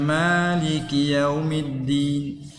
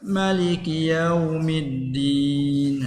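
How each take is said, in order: First: The first vowel of Maliki is drawn out long. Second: The first vowel of Maliki is kept short. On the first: This is the reading of Asim and Kisai. "kiraat kita ni baca yang ada alif ni" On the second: This is the reading of the other five readers. "macam dengan tak ada alif"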